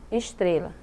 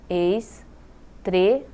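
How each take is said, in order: First: Said in the usual way. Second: "estrela" as es, tre, la with pauses; very slowly separate the syllables of "estrela"; split into syllables. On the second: Shown as a demonstration. Teacher counting three syllables, "estrela" piece by piece. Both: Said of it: "três sílabas".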